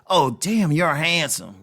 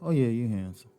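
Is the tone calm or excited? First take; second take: excited; calm. First: It is said in an excited, lively tone. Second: It is said in a calm, flat tone.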